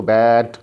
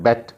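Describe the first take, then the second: First: बैट pulled out long and loud; long बैट, as in "bat"; stretched vowel. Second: बैट said short, like "bet"; quick, unstretched बैट; quick pronunciation. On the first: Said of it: "देखो इसको stretch किया". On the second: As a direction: clip the vowel of बैट short. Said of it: "इसको जो है quickly pronounce किया". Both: Shown as a demonstration.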